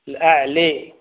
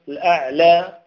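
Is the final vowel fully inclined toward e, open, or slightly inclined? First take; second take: fully inclined; slightly inclined. First: The final vowel leans strongly toward an e sound. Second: The final vowel leans slightly toward an e sound. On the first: "هذه الممالة" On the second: "والمقللة"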